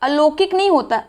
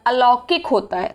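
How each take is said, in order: First: अलौकिक said "alokik"; closed o in लौ of अलौकिक; wrong O sound. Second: अलौकिक said "alaukik"; correct AU sound. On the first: Teacher quoting the mistake, O form. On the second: Teacher correcting it, AU form. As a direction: open au in लौ of अलौकिक. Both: Shown as a demonstration. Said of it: "ओ और अ संबंधी गलतियाँ".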